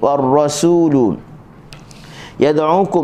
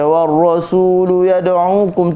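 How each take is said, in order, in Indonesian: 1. Bunyi s itu tipis dan ringan. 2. Bunyi s itu tebal dan berat. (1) "Kita nak baca dengan huruf sin" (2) "tu jadi huruf sad"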